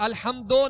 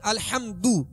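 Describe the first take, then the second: First: The final vowel sounds like an open 'o'. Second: The final vowel is a fully rounded 'u'. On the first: The speaker calls it wrong. "मजहूल नहीं पढ़ेंगे" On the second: The speaker calls it right. "मारूफ पढ़ेंगे, दोनों होठों को कामिल गोल करेंगे"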